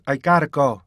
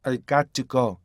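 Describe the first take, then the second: First: "got to" joined into gotta; linked "gotta go". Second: "got to" unlinked, two words; precise "got to go". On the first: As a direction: tap the T in "gotta". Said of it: "이렇게 해야 된다고". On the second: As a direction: keep the T in "got to" distinct. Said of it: "이게 훨씬 더 정확한 발음". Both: Shown as a demonstration.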